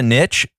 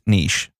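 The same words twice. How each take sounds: First: The word rhymes with pitch, short vowel. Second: The word rhymes with quiche, long vowel. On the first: "I'll usually call it a niche" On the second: "they specialize in quiche, then I'm going to have to go with niche"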